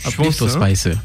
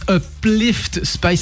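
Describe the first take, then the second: First: The name is said with an added final vowel. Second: The name is said without added vowels. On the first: "C'est presque plus chantant finalement en japonais qu'en français" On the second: "c'est dur"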